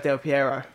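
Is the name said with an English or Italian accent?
English. The name is said with an English accent. The speaker says it the way a native English speaker would. The speaker calls it right. "you're English, mate. Just say Del Piero"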